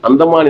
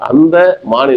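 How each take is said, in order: First: The two parts run together without a gap. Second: There is a short gap between the two parts. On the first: It refers to a place. "Andaman என்பது ஊர்" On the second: It refers to that deer, an animal. "அந்த மான் என்பது ஒரு விலங்காக மாறிவிடுகிறது"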